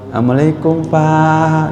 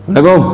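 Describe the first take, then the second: First: The greeting sounds warm and polite. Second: The greeting sounds curt and cold.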